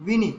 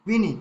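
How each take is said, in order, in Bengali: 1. স্বরটি ছেঁটে হ্রস্ব করে বলা হয়। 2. স্বরটি ছেঁটে হ্রস্ব করে বলা হয়।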